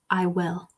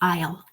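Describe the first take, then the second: First: Will is said in full as a separate word. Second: Will is contracted onto I. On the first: The speaker calls it right. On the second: The speaker calls it wrong.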